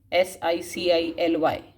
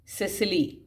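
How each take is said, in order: First: S I C I L Y, each letter said separately and clearly; spelled out letter by letter. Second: Said in the usual way. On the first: Shown as a demonstration. Teacher spelling Sicily for the class, letter by letter.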